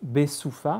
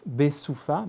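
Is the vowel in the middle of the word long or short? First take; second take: short; short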